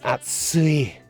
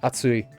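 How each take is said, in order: First: The word is said with exaggerated, stretched emphasis. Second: The word is said plainly, without extra emphasis. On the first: It is really hot. "It's atsui" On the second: It is just hot. "It's not just atsui"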